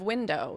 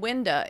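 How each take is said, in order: First: The word ends in a full 'oh' sound. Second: The word ends in a short 'uh' sound. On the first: "instead of" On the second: "they say"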